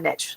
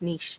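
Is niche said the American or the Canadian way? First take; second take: American; Canadian. First: Niche is said the US West Coast way. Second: Niche is said the Canadian way. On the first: "in the U S on the West Coast, and we said niche" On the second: "here to Canada, and everyone here says niche"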